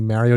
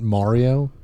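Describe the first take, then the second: First: Mario is said with a New York pronunciation. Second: Mario is said with a general American pronunciation. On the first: "I'm originally from New York, I say Mario" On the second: "not Mario"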